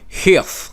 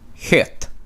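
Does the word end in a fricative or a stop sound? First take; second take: fricative; stop. First: The word ends in a fricative sound. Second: The word ends in a stop sound. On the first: The speaker calls it right. "that is also fricative" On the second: The speaker calls it wrong. "instead of hit"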